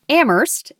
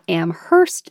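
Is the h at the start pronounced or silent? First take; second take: silent; pronounced. First: The h at the start is silent. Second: The h at the start is pronounced. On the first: The speaker calls it right. "only the H is silent" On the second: The speaker calls it wrong. "not Amherst"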